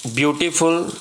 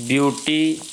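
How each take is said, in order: First: Said in the usual way. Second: ब्यूटीफुल broken up, long pause before the final फुल; syllable by syllable. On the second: Shown as a demonstration. Teacher showing students the syllables, ब्यूटीफुल split with a long pause. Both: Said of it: "एक syllable हो गया".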